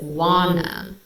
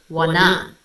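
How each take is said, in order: First: "wanna" as "WAN-na"; first-syllable stress. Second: "wanna" as "wa-NA", louder second syllable; second-syllable stress. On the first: Reviewer showing normal emphasis, WAN-na. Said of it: "emphasis is on the first syllable". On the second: Reviewer showing the shifted emphasis, wa-NA. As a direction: hit the NA of "wanna". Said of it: "what Felix has done". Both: Shown as a demonstration.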